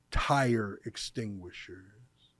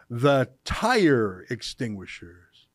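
First: "tire" slow, lower and softer, with a wry rise; quiet slow stress on tire. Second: "tire" drawn out and lower, slow and mocking; slow, sneering stress on tire. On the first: Host noting the website name, slow and wry. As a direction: murmur "tire extinguishers" slowly, amused. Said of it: "that's their website too". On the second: Host mocking the pamphlet's name, stressing "tire" slowly. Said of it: "look at how it ends". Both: Shown as a demonstration.

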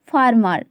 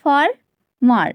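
First: Said in the usual way. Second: "ফার্মার" slowly broken into two parts, ফার and মার; split into syllables. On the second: Shown as a demonstration. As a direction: say "ফার্মার" in two separate beats. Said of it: "দুবারে উচ্চারিত হচ্ছে".

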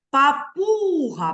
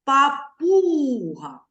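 First: Slow Папуга, пу held long; stressed syllable. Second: Slow Папуга with the пу stretched; stressed syllable. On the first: Teacher repeating the word for the class, stress drawn out. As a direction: draw out пу in Папуга. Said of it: "Голосніше". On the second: Teacher showing pupils where the stress falls, drawn out. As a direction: lean on пу in Папуга, drawing it out. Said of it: "Давайте спробуємо". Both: Shown as a demonstration.

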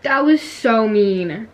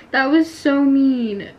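First: Slow, laughing complaint. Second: Said in the usual way. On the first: Real, not acted. Gamer laughing about being killed, laughing complaint.

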